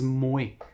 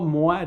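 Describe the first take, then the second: First: It is said with a Quebec-style 'mweh' vowel. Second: It is said as standard French 'mwa'. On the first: This is the form Quebecers supposedly use. "disent moi" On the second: This is the form Quebecers supposedly avoid. "les Québécois disent pas moi"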